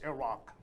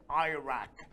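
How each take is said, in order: First: "Iraq" said as "ih-ROCK", short i, open a; correct pronunciation. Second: "Iraq" said as "eye-RACK", long eye then flat a; American "Iraq": EYE-rack, stress on rack; American mispronunciation. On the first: Teacher corrects students: "Iraq" as ih-RAHK. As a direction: correct "Iraq": ih-RAHK, stress on the second syllable. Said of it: "but it's Iraq". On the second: Teacher mimics how Americans say it: "Iraq" as eye-rack. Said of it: "some people in America like to say". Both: Shown as a demonstration.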